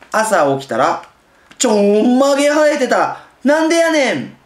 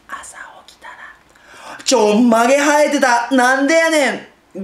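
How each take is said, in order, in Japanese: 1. 文全体を大きな声で読みます。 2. 最初は小さく、最後に大きくします。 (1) "大きく読むんだったら／声を大きく言ってるわけです" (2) "その手前を小さく読むと、大きい声の幅が出る"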